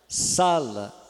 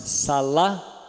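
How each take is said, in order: First: The stress is on the first syllable. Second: The stress is on the last syllable. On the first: "o sa ficou forte" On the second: "aquele mesmo sa ficou fraco, porque eu falei o lá com mais força ainda"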